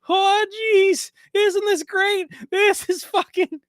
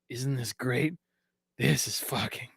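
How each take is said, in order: First: It is said in a Morty impression. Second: It is said in his normal voice.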